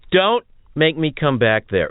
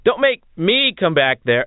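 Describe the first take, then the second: First: It sounds tough, like a stern dad. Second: It sounds weak and not tough.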